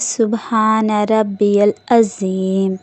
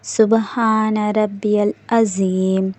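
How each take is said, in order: Both takes have the same delivery.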